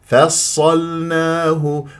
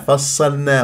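First: The l is clearly pronounced before the n. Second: The l is merged into the following n. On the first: The speaker calls it right. "شوف اللسان لازم تنطي مجال يروح بالبينية بالتوسط إلى مخرج اللام" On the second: The speaker calls it wrong. "البعض يدغم هذه اللام في النون"

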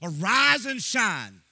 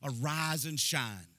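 First: It is said loudly, with vigor and excitement. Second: It is said calmly, without much energy.

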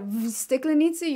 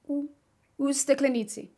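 First: The first word is a 'v' consonant sound. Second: The first word is an 'oo'-like vowel sound. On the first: The speaker calls it wrong. "instead of v steklenici" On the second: The speaker calls it right. "you say u steklenici"

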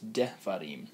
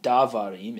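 First: The first vowel is a short 'e' sound. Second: The first vowel is a full 'a' sound. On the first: The speaker calls it right. "you're hearing that short eh, and that's our shiva" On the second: The speaker calls it wrong. "It's not davarim"

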